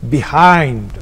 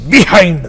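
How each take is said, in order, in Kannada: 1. ಎರಡನೇ ಅಕ್ಷರಕ್ಕೆ ಹೆಚ್ಚು ಒತ್ತು ಕೊಡಲಾಗುತ್ತದೆ. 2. ಎರಡನೇ ಅಕ್ಷರಕ್ಕೆ ಹೆಚ್ಚುವರಿ ಒತ್ತು ಇಲ್ಲ. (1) "ಎರಡನೇ ಅಕ್ಷರವನ್ನ ಹೆಚ್ಚು ಒತ್ತಬೇಕು" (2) "ನಾವು ಬಿಯಾಂಡ್, ಬಿಹೈಂಡ್ ಅಂತೀವಿ"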